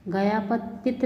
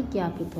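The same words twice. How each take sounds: First: गयापतित as "ga-ya-patit"; mispronounced. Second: Said in the usual way. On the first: Shown as a demonstration. Teacher showing students an error, गयापतित with extra syllables. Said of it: "नहीं होता". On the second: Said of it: "होता है".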